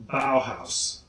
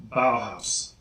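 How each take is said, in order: No difference in how they are said.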